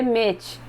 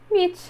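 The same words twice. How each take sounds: First: "meet" said as "méti", with a Portuguese final i; the learner's mistaken "meet"; meet read like Portuguese. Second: "meet" said as "mitch", an English long ee with a short clipped ending; "meet" pronounced correctly. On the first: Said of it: "quer ler igual ao português". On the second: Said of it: "do jeito que se fala em português". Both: Shown as a demonstration.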